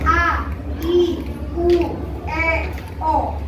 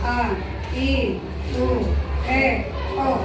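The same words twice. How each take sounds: First: The vowels are loud and clear, lips wide open. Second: The vowels are quiet and mumbled, lips barely open. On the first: The speaker calls it right. "mengucapkannya lantang dan bibirnya terbuka" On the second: The speaker calls it wrong. "bukan A, I, U, E, O. Bibirnya nggak terlihat"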